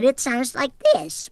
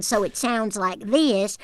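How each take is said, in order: First: Higher, Russian-over-Southern accent; Southern accent with Russian on top; Russian-tinged Southern accent. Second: French slowed down into Southern; Southern accent. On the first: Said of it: "when you add the Russian on top". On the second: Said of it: "when you have a Southern accent". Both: Shown as a demonstration.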